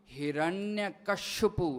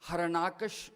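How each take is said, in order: First: The name is said long, as Hiranyakashipu. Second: The name is said short, as Harnakash. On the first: This is the Sanskrit form of the name. "Sanskrit दे विच जां मूल ग्रंथां दे विच इहदा नाम" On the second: This is the Punjabi form of the name. "Punjabi दे विच उचारण है"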